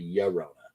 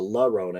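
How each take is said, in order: First: The name begins with a Y sound. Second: The name begins with an L sound. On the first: The speaker calls it right. "It's the Llorona" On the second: The speaker calls it wrong. "it's not the Sharona or the La Rona"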